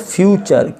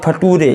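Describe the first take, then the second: First: The middle consonant is a 'ch' sound. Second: The middle consonant is a plain 't' sound. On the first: The speaker calls it right. "तो ये हो गया फ्यूचर" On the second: The speaker calls it wrong. "ऐसे फटूरे, ऐसे नहीं पढ़ना है"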